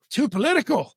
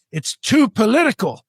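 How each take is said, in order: First: High-pitched disbelieving question; incredulous echo. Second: High-pitched mimicry of the woman; mock objection. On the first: Retold or imitated. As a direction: throw it back, astonished. Echoes her objection in disbelief. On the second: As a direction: deliver her clincher, mockingly pitched up. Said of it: "this is the clincher".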